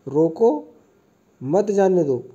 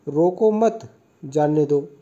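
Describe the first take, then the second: First: There is a pause after the first word. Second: There is a pause after the second word. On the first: Stop this person and do not let them go. "यहाँ पर अल्प विराम का प्रयोग किया गया है ना ... इसको रोको और इसे मत जाने दो" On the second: Do not stop this person; let them go. "अब अगला देखते हैं हम"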